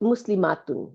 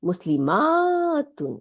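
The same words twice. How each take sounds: First: The vowel before -tun is short. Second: The vowel before -tun is long. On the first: It refers to one person. "সিঙ্গুলারের বেলায় শর্ট আ হবে" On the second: It refers to several people. "প্লুরালের বেলায় ... মানে লম্বা আলিফ হবে"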